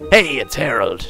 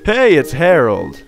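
First: It is said in a put-on sexy man voice. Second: It is said in a normal voice.

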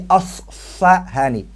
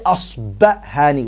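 First: The second consonant is an f sound. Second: The second consonant is a b sound. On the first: "And you can also say Asfahani. Ba or fa is the same" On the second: "You can say Asbahani with a ba"

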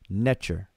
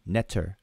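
First: The middle consonant is a 'ch' sound. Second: The middle consonant is a plain 't' sound. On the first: This is how most people say it. "most of us pronounce it Netcher. That underlined T has a C-H sound, like church" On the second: This is how some people say it. "Some people pronounce it Netter, like N-E-T-E-R"

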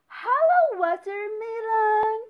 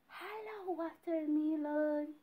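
First: It is said loudly. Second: It is said very quietly.

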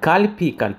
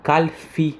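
First: The middle consonant is a p sound. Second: The middle consonant is an f sound. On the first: The speaker calls it right. "в правильном произношении это с буквой «пей»" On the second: The speaker calls it wrong. "некоторые называют его кальфи с буквой фей"

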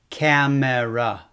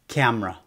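First: The word is said with three syllables, keeping the middle vowel. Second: The word is said with two syllables, dropping the middle vowel. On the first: "Japanese people often say with the optional sound" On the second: "most Americans say without the optional sound"

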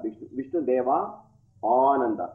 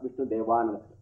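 First: Deva and Ananda are said as separate words. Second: Deva and Ananda merge into one long vowel.

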